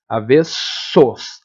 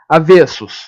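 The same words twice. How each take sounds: First: Very slow "Avessos", split before a long s; stretched S sound. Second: Said in the usual way. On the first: Shown as a demonstration. Teacher showing students the phoneme, "Avessos" with s sounds drawn out. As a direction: hold the double s in "Avessos". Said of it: "aquele fonema que faz esse som". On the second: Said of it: "faz esse som aqui".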